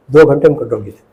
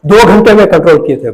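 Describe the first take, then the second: First: Said in the usual way. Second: Louder and higher, stress on दो; proud emphasis on दो घंटे; emphatic boast. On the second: Real, not acted. Repeats the feat for emphasis.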